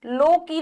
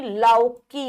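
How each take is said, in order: First: लौकी with an o, 'loki'; mispronounced लौकी. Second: लौकी with a slow au, 'lauki'; au sound. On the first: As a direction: say लौकी wrongly as 'lo-ki'. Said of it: "लौकी नहीं". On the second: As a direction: say लौकी slowly as 'lau-ki'. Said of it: "औ आता है". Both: Shown as a demonstration.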